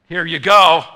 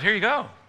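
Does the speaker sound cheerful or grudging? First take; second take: grudging; cheerful. First: It is said in a reluctant, unhappy tone. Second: It is said in a warm, happy tone. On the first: The giver is not glad to serve. The speaker calls it wrong. "served someone but not been happy about it" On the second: The giver serves with gladness. The speaker calls it right. "Or instead of, ... It's all in the tone"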